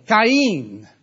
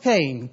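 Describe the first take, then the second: First: Cain said the Hebrew way, as KAH-een; Hebrew pronunciation. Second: Said in the usual way. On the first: Shown as a demonstration. Preacher gives the congregation the original name, Cain pronounced "kah-een". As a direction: stretch Cain into two vowels, "kah-een".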